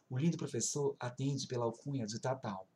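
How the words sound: It is said in a special put-on voice.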